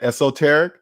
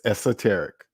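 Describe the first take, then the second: First: The second syllable is said with an 'o' vowel. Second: The second syllable is said with an 'eh' vowel. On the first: The speaker calls it wrong. "even though it has an O in there, and I want to look at it" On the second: The speaker calls it right. "it's esoteric ... they saying E S E ... not S O"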